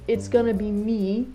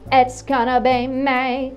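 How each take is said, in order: First: The vowel in me is plain and ordinary. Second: The vowel in me is bent and punchy. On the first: It hits softer. "Instead of saying" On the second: It hits harder. "for it to hit harder"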